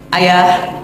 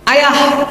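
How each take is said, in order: First: The call is said at normal pitch. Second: The call is pitched very high and forceful. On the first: This is a first, calm call. "saya panggil dari belakang" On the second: This is an exasperated third call. "Panggilan ketiga perempuan Pak, langsung tujuh oktav"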